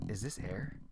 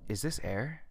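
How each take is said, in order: First: The question sounds mocking and sarcastic. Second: The question sounds puzzled and genuinely confused. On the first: The speaker is joking and does not mean it. The speaker calls it wrong. "instead of like" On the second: The speaker is truly troubled by not knowing. The speaker calls it right. "Like you're confused about it"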